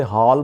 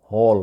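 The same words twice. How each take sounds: First: "ہال" with open "aa": haal; common mispronunciation. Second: "ہال" with rounded "aw"; correct pronunciation. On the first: Teacher shows the usual wrong hall, mispronounced. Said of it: "جو کہ غلط تلفظ ہے". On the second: Teacher gives real pronunciation of hall, clear model. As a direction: say "ہال" as "hawl". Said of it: "اصل اس کا تلفظ ہے". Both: Shown as a demonstration.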